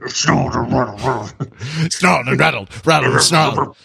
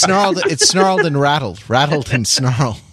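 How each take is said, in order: First: It is read in a growling metal voice. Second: It is read in a plain speaking voice.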